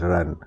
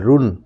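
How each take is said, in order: First: The vowel is an open 'a' sound. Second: The vowel is a rounded 'u' sound. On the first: The speaker calls it right. "ये लिखा हुआ है रन" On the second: The speaker calls it wrong. "नहीं"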